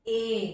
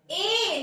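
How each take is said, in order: First: ए low, with a narrower mouth; less open ए. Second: ए drawn out with the mouth opening; long open ए. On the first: Teacher demonstrating the sound of e, less open ए. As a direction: say ए lower, mouth only slightly open. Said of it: "थोड़ा सा मुंह कम खुलेगा". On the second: Teacher showing pupils the mouth shape, long open ए. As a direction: stretch ए long, opening wide. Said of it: "ए लंबा खींच रहा है". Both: Shown as a demonstration.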